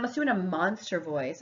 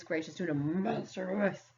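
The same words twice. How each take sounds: First: Said in the usual way. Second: Softer mock monster growl. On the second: Shown as a demonstration. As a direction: playfully slip into a monster voice.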